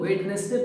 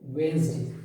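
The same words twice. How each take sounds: First: वेडनेसडे with the d sounded, wed-nes-day; common mispronunciation. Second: वेडनेसडे as wenz-day, d silent; correct pronunciation. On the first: Teacher showing students the common wrong way, d sounded. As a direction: spell out every letter of वेडनेसडे, d included. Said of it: "अक्सर लोग वेडनेसडे बोलते हैं". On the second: Teacher modelling the right way for students, silent d. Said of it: "यहाँ पे डी silent है / तो ये पढ़ा जाएगा". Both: Shown as a demonstration.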